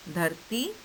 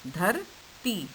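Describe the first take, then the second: First: Said in the usual way. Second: धरती split slowly into धर, pause, ती; syllable by syllable. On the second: Shown as a demonstration. Teacher spelling धरती for children, slowly sounded out as धर and ती. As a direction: break धरती in two, stretching each part. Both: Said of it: "त को बड़ी ई की मात्रा ती".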